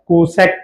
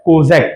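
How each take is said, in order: First: The middle consonant is an s sound. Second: The middle consonant is a z sound. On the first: The speaker calls it wrong. "এটাকে কোসেকও পড়া যাবে না" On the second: The speaker calls it right. "দন্ত স দিয়ে না পড়ে আমরা পড়বো কি বর্গীয় জ দিয়ে"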